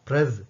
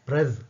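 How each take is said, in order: Both takes have the same delivery.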